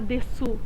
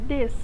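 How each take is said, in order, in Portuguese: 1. A vogal final u é claramente pronunciada. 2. A vogal final u é quase muda. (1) "a gente não vai falar "deçu"" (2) "é "des", como se a gente só falasse D E S"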